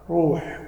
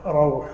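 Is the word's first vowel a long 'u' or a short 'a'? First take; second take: u; a. First: The first vowel is a long u sound. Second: The first vowel is a short a sound. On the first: "روح بالضم" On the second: "قراءة ثانية"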